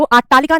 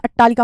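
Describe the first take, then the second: First: अट्टालिका with a long first 'aa'; wrong pronunciation. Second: अट्टालिका with short first 'a'; correct pronunciation. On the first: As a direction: say अट्टालिका as "AAT-taalika". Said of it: "अट्टालिका नहीं होता बेटा". (अट्टालिका को 'आट्टालिका' बोलना) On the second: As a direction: say अट्टालिका as "at-TAA-lika". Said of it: "अट्टालिका होता है". (अट्टालिका में छोटा 'अ') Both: Shown as a demonstration.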